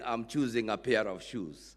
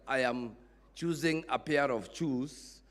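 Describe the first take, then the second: First: Choosing starts with ch, shoes with sh. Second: Choosing starts with sh, shoes with ch. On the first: The speaker calls it right. "instead of saying" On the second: The speaker calls it wrong. "I was saying"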